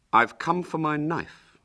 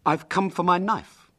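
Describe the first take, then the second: First: Put-on high boy's voice, mildly stern. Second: Put-on high, matter-of-fact boy; simple. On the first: William confronting Hubert for his knife, mildly stern. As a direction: demand it with a touch of firmness. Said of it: "said William sternly". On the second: William at the Lanes' door for his knife, simply. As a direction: state it simply and innocently. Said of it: "said William simply".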